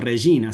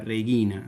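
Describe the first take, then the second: First: The g is said the church Latin way. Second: The g is said the classical Latin way. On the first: This is how it is said at Mass. The speaker calls it right. "Nosotros decimos Regina" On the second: This is not how it is said at Mass. The speaker calls it wrong. "nunca Regina ... eso es pronunciación clásica"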